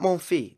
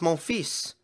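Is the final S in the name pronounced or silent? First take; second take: silent; pronounced. First: The final S sound is left silent. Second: The final S sound is clearly pronounced. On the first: The speaker calls it wrong. "It's not Monfils" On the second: The speaker calls it right. "You are supposed to pronounce the S"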